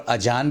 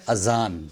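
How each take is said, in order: First: "اذان" as ajaan, with j; mispronounced j for z. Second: "اذان" as azaan, buzzing z; careful azaan for "اذان"; correct z sound. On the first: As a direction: say "اذان" with j replacing z. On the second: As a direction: say "اذان" with a clear z, not j. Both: Shown as a demonstration. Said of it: "یہ لفظ اذان نہیں ہے".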